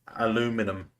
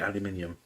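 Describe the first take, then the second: First: It is said with four syllables, American style. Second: It is said with five syllables, British style. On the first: "I say it for the Americans" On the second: "I would say aluminium"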